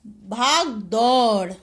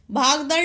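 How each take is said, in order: First: भाग दौड़ slow, long औ in दौड़; भाग दौड़ stretched as "bhaag-daur"; corrected word. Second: भागदड़ with a short "a" after द; quick last vowel in भागदड़; misspelt word. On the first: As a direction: draw out "dau" in भाग दौड़. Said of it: "क्या होता है". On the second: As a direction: say भागदड़ as "bhaag-dar". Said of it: "नहीं होता". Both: Shown as a demonstration.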